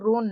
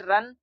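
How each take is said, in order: First: The vowel is a long oo sound. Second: The vowel is a short uh sound. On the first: The speaker calls it wrong. "इसको हम लोग रून नहीं पढ़ेंगे" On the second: The speaker calls it right. "आर यू N को यहाँ पर हम लोग पढ़ेंगे रन"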